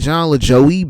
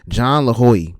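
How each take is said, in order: First: The J is said as an English J sound. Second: The J is said as an H sound. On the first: The speaker calls it wrong. "because that's what it looks like" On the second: The speaker calls it right. "The J is it sounds like an H"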